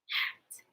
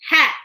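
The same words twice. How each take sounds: First: It is whispered without voice. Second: It is spoken in a normal voice.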